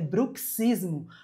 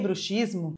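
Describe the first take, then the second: First: The x is pronounced as a 'ks' sound. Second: The x is pronounced as an 'sh' sound. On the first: It refers to grinding one's teeth. The speaker calls it right. "Você deve pronunciar assim como pronuncia táxi" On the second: It refers to believing in witches. The speaker calls it wrong. "está passando vergonha. A não ser que você queira dizer que crê em bruxas"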